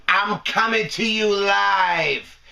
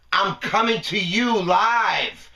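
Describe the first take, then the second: First: Slow, leaning on "coming"; stress on coming. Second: Slow, leaning on "you"; stress on you. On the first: Host opening his broadcast, slow with "coming" stressed. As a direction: draw out "coming" like a show opener. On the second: Host repeating his opener, slow with "you" stressed. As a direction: land "you" hard, slowly. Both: Shown as a demonstration.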